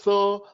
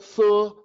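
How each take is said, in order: First: The syllable has a rounded 'u' vowel. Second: The syllable has a rounded 'u' vowel.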